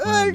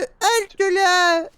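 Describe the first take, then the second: First: It is said in a deeper, more imposing voice. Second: It is said in an ordinary voice.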